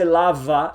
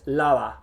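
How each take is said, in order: First: The middle consonant is a v sound. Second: The middle consonant is a soft b. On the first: The speaker calls it wrong. "Definitely not a V sound. Don't say lava, does not exist in Spanish" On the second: The speaker calls it right. "It's lava"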